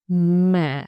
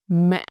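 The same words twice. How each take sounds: First: The pitch dips low and stays deep. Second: The pitch falls, breaks, then rises again. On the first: "low deep" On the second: "ngã tone, or broken tone"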